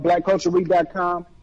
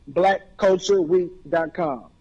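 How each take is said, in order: First: It is said at normal conversational speed. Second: It is said slowly and carefully.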